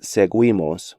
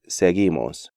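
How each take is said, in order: First: The u is sounded after the g. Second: The u is silent after the g. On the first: The speaker calls it wrong. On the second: The speaker calls it right. "U is silent in these sequences"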